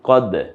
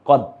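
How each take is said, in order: First: The final d is released with a bounce. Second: The final d is cut off without release. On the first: The speaker calls it right. "এই যে দালটা বের হয়ে আসলো উচ্চারণটা" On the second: The speaker calls it wrong. "এভাবে না"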